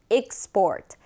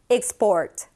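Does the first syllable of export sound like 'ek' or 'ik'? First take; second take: ik; ik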